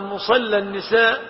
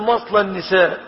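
First: The first word is pronounced musalla. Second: The first word is pronounced masla. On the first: It names the place where women pray. The speaker calls it right. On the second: It names the place where women are burned in fire. The speaker calls it wrong.

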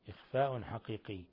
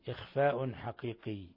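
Both takes have the same delivery.

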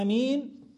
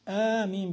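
First: The first vowel is kept short. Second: The first vowel is drawn out long. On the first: "بالقصر" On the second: "بالمد"

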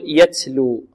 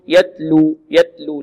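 First: The t is hissed like an s sound. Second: The t is released with no breath. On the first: "لا نبالغ في الهمس أو نشرب التاء هنا رائحة السين" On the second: "لا نعدم الهمس في التاء"

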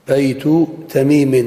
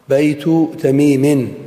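Both takes have the same delivery.

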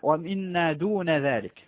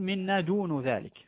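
First: The word dun ends with an 'a' vowel. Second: The word dun ends with a 'u' vowel. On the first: The word is treated as indeclinable. "القراءة وردت بالفتح على البناء" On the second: The word is inflected as the subject. "لكن يجوز أن تقول"

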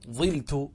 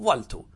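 First: The first vowel is i. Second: The first vowel is a. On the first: "من أين جاءت الكسرة التي على الظاء؟" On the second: "لا ننقل الكسرة وإنما نترك الظاء مفتوحة كما هي"

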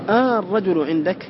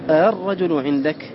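First: The opening vowel is a long drawn-out aa. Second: The opening has a softened catch between glottal and vowel. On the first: "الأول إبدال همزة الوصل ألفا" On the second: "والوجه الآخر التسهيل، وهو أن ينطق بها بين الهمزة والألف"

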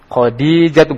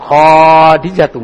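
First: The vowel after kh is short. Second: The vowel after kh is long. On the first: The speaker calls it right. "Khadijatu bukan" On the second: The speaker calls it wrong. "bukan Khadijatu"

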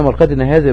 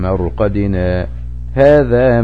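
First: The two words run together without a pause. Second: A brief light pause separates the two words. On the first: The word 'this' points back to the place of sleep. The speaker calls it wrong. "لو قلنا مرقدنا هذا بكلمة هذا رجعت ايه اشارة للمرق" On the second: The word 'this' points to the resurrection day. The speaker calls it right. "سكتة لطيفة ... دي مقدار السكتة"

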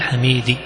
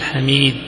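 First: The final consonant ends with a faint short i. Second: The final consonant ends with no vowel.

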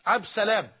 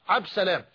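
First: The article before Salam is dropped. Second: The same.

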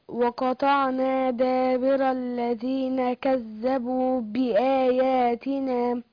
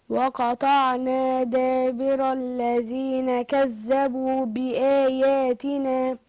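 No difference in how they are said.

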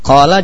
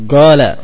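First: The word begins with a deep throaty q sound. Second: The word begins with a hard g sound.

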